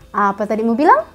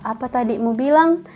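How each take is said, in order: First: It is said in an irritated, emotional tone. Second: It is said in a calm, polite tone. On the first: The speaker is annoyed and challenging the other person. "itu kayak emosi begitu" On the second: A sincere, respectful question about what was said. "itu kan sopan gitu"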